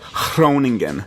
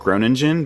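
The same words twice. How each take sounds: First: The G is a breathy huh and the R rolls. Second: The G is hard and the R is plain.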